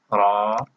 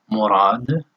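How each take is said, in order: First: Pauses setting ra apart in Murad; Murad syllable by syllable. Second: Said in the usual way. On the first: Shown as a demonstration. Teacher isolating ra in Murad for learners, syllable by syllable.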